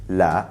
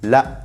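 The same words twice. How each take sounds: First: The vowel ends openly without a glottal stop. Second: The vowel is cut off by a glottal stop. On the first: This is the standard Arabic form. "In standard Arabic" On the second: This is the spoken dialect form. "In the dialect, the hamza cuts off the word abruptly"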